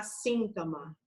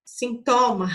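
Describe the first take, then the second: First: "síntoma" stressed on the first syllable, SÍN-to-ma; Spanish pronunciation. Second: "Sintoma" stressed on TO, sin-TO-ma, louder; incorrect pronunciation. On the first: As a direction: hit SÍN in "síntoma", light ending. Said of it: "eu tenho que falar". ("síntoma" em espanhol, com a tônica em SÍN) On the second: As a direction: punch the middle syllable of "Sintoma". ("Sintoma" errado, com a tônica forte em TO) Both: Shown as a demonstration.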